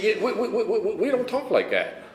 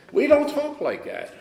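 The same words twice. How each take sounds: First: High-pitched mock stammer, tripping over "we"; flustered stammering. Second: High, slow, drawn-out mock refusal; firm refusal. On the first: Mother answering her son's love, flustered stammering. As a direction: imitate someone thrown and sputtering. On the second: Mother refusing her son's "I love you", firm refusal. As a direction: imitate a slow, insistent brush-off.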